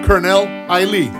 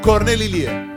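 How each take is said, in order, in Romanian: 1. Numele se pronunță în felul englezesc. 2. Numele se pronunță în felul românesc.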